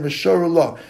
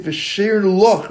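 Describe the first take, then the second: First: "V'shar Lach" said slowly, two words apart; slow, distinct "V'shar Lach"; separated words. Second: "V'shir Lach" said as the faulty version; slow "V'shir Lach" as a counterexample; wrong pronunciation. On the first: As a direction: keep "V'shar" clear of "Lach". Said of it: "rather than V'shar Lach. Don't put them, the words together". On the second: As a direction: demonstrate the slip "V'shir Lach". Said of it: "not to make it V'shir Lach rather than". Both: Shown as a demonstration.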